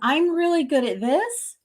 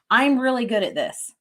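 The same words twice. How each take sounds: First: The voice rises at the end. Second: The voice falls at the end. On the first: The speaker doubts the claim. The speaker calls it wrong. "I kind of fluctuate and I go up at the end" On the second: The speaker is confident in the claim. The speaker calls it right. "boom, statement"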